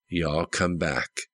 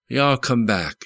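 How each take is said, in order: First: "Y'all come back" repeated slowly and softer, turned over in thought; slow, quieter "Y'all come back", as if savouring it; musing echo. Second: "Y'all come back" in a light southern lilt, pitched higher; a hint of a southern clerk saying "Y'all come back"; southern goodbye. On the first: Retold or imitated. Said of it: "reasoned Jones". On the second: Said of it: "That was the way to say goodbye in the South".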